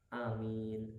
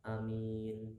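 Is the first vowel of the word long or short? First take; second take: short; short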